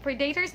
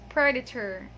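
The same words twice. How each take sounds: First: "predators" said pree-DAY-ters; wrong pronunciation. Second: "predator" as PRED-uh-ter, short first E; correct pronunciation. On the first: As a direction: put a long DAY inside "predators". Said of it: "it's not pred-, predators". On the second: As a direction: stress the start of "predator" and weaken the middle. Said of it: "it's predator". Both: Shown as a demonstration.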